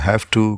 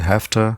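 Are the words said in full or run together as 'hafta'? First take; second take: full; reduced. First: Both words are said fully and separately. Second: The words run together into 'hafta'.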